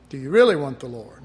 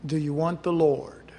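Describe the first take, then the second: First: Louder, fast, pressing the question; pointed challenge. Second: Said in the usual way. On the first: Real, not acted. Preacher pressing the congregation, loud and fast. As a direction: push the question hard at them.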